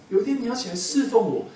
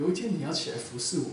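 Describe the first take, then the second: First: Higher and louder, 天 stressed on the repeat; emphatic repeat. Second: Said in the usual way. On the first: Acted. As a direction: drive the promise home, louder this time. Repeated line in God's voice.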